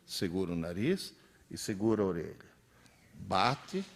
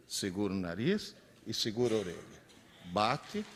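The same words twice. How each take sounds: The two takes are said the same way.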